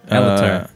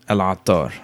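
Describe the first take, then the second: First: The name is said with an American pronunciation. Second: The name is said with an Arabic pronunciation. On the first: "How do you say it in American?" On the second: "in Arabic, it's Al-Attar"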